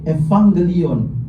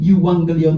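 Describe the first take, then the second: First: The word begins with an ev sound. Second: The word begins with a yu sound.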